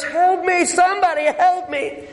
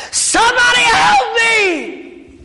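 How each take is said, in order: First: Higher hollered plea for help; hollering for help. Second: Slow, drawn-out scream, much higher and louder; desperate shout. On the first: Man in gorilla suit hollers to nobody, pitched-up holler. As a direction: holler for help up into the empty zoo. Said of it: "And he hollers". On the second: Man trapped by lion screams to reptile keeper, all-out slow yell. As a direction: throw everything into one last yell for help. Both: Acted.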